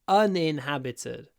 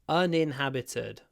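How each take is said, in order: No difference in how they are said.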